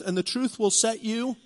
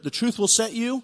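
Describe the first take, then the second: First: Said in the usual way. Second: "the truth will set you" raised, then hold for the congregation to answer; pause before the last word. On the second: Shown as a demonstration. Preacher baits the congregation to finish the verse, hanging pause. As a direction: leave a hanging pause after "you" for the crowd. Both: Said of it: "and hear it".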